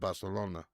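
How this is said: The c is pronounced like s. "in the other part of Spain"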